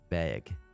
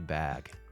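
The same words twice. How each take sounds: First: The vowel sounds like the one in bagel. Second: The vowel sounds like the one in cat. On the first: This is how people locally say it. "We say it like a bagel" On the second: This is the standard way to say it. "technically supposed to be bag"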